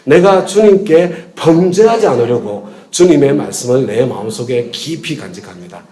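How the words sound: The stress is on 범죄하지 않으려고.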